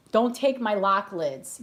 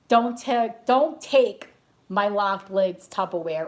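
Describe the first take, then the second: First: Slow, drawn-out mock warning; mock Tupperware warning. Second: Louder, punchier mock threat, words hit hard; louder mock warning. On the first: Crazy Tupperware lady guarding her lids, slow mock warning. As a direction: warn them off slowly, half joking. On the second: Crazy Tupperware lady threatening a fight, louder mock threat. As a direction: stake your claim on the lids, louder. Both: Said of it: "I used to be a crazy Tupperware lady too".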